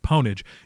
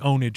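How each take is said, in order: First: The word begins with a p sound. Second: The word begins with a vowel, no p sound. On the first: The speaker calls it wrong. "a lot of people say Ponage" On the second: The speaker calls it right. "which is why I say Ownage"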